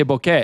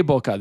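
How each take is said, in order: First: Bokeh ending in "eh", Japanese-style; bokeh as BOH-keh. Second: Bokeh with a final "uh", the rejected way; bokeh as BOH-kuh. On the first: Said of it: "They say bokeh". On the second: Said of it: "They don't say bokeh". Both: Shown as a demonstration.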